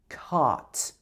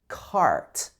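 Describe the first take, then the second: First: It is said in a British accent. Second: It is said in an American accent. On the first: "But in British English, we'd say cart" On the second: "In American English, this would be more like cart"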